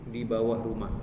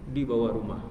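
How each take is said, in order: No difference in how they are said.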